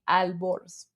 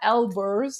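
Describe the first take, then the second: First: The name begins with an A vowel sound. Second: The name begins with an E vowel sound. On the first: The speaker calls it right. "It should be with an A" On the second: The speaker calls it wrong. "not Elburz"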